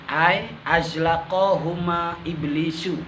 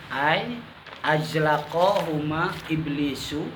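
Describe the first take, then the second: The two takes are said the same way.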